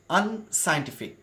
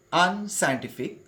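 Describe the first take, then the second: No difference in how they are said.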